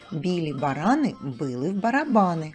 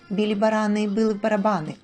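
First: It is spoken at a moderate pace. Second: It is spoken at a fast pace.

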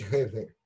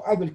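First: The name starts with an h sound. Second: The name starts with a vowel, no h. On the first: This is the original form of the name. The speaker calls it right. "вообще-то там 2 «э» должно быть правильно. Должно быть Хейбель" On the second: This is the customary form in the local language. The speaker calls it wrong. "как принято в русском языке"

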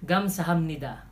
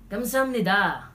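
First: It is said in a plain, neutral tone. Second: It is said in an irritated, annoyed tone.

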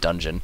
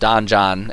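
First: The word is said just like 'dungeon'. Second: The word is not said like 'dungeon'. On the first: The speaker calls it right. "I think you're supposed to pronounce it more like just dungeon" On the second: The speaker calls it wrong. "as I always pronounce it"

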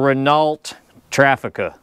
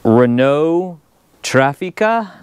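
First: The name is said with a Texan-style pronunciation. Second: The name is said with a European-style pronunciation. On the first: "Here in Texas, we're going to call this a Renault Trafica" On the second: "I'm probably saying this wrong, so to the Europeans, I'm sorry"

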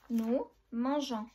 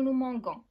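First: The g is said as a soft zh. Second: The g is said as a hard g. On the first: The speaker calls it right. "Hatena le E, qabel men le O" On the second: The speaker calls it wrong. "naqdrouch ngoulou nous mangons"

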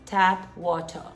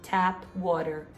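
First: It is said in a British accent. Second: It is said without a British accent.

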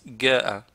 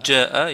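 First: The word starts with a hard g sound. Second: The word starts with a j sound. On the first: Another tribe pronounces it this way. "ils disent Ga'a" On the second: This is the standard pronunciation. "Au lieu qu'ils disent Ja'a"

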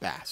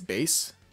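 First: The vowel is short, rhyming with 'mass'. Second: The vowel is long, rhyming with 'case'. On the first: The speaker calls it wrong. "It's not bass. There's no way" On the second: The speaker calls it right. "I think it's base. I think that's how you say it"

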